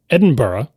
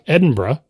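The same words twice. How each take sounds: First: Edinburgh as "Edin-buh-ruh"; full "burra" pronunciation. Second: Edinburgh as "Edin-bruh"; hurried pronunciation. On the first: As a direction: give Edinburgh a two-syllable "burra" ending. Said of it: "where it's B U H R U H". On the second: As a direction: drop the vowel before the r in Edinburgh. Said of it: "Now the borough becomes bruh". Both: Shown as a demonstration.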